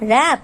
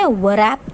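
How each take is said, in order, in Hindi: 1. इस शब्द की शुरुआत में W की कोई आवाज़ नहीं है। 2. इस शब्द की शुरुआत में W की आवाज़ है। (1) "So here we are not using W" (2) "यहाँ पे हमने wrap तो नहीं बोला"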